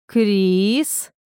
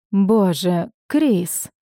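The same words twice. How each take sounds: First: «Крис» stretched long with a rising end; drawn-out name. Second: Mildly exasperated, falling «Крис»; restrained irritation, holding it in; through gritted teeth. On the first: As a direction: draw out the vowel of «Крис», lifting it. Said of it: "протянул Тамир". (протяжное «Крис» с подъёмом) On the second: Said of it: "процедил сквозь зубы Тамир". (сквозь зубы, с досадой) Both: A narrator's reading.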